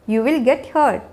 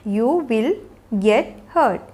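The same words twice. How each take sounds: First: Said in the usual way. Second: Slow, with gaps between words. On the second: Shown as a demonstration. Teacher showing learners how to say an injury warning, word by word. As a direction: separate "You will", "get" and "hurt" with pauses. Teacher models phrase slowly, then joined.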